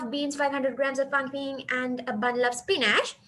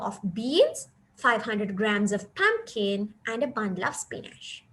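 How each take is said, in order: First: The list is read without pauses between items. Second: The list is read with pauses between items. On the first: The listener cannot grasp the meaning. The speaker calls it wrong. "you don't have time to grab the sense of the sentence" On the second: The listener can grasp the meaning. The speaker calls it right. "so here we have to read it like"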